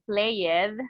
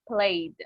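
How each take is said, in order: First: The ending is said as an extra syllable. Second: The ending adds no extra syllable. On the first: The speaker calls it wrong. "we never say played. Mm-mm" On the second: The speaker calls it right.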